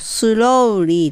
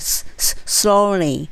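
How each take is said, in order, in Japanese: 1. 最初のs音のあとに u の母音が続く。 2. sはそのままlにつながる。母音はない。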